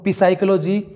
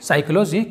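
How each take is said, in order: First: The word begins with a p sound plus vowel. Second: The word begins directly with an s sound. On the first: The speaker calls it wrong. "वो पिसाइकोलॉजी या पसाइकोलॉजी कुछ अजीब तरह से पढ़ते हैं" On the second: The speaker calls it right. "जबकि ये होगा दोस्तों साइकोलॉजी"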